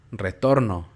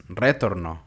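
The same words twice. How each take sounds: First: Said in the usual way. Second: "retorno" stressed on RE, as RÉtorno; wrong first-syllable stress. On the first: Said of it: "escuchen la palabra". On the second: Shown as a demonstration. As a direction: shift the force to RE in "retorno". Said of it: "y no es retorno". ("retorno" con la fuerza en RE)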